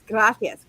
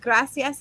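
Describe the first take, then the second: First: The c is said with a th sound. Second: The c is said with an s sound. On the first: The speaker calls it right. "it's pronounced with a th" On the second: The speaker calls it wrong. "not gracias"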